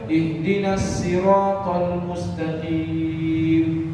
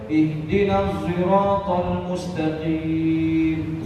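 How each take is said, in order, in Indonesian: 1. Siratal dimulai dengan bunyi s. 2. Siratal dimulai dengan bunyi z.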